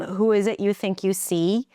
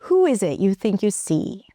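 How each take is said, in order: First: It is said on one flat note. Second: It is said with widely varied pitch. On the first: The speaker calls it wrong. "You might be saying it on the same note" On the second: The speaker calls it right. "now we're trying to open it up"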